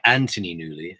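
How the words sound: The name is said in a British accent.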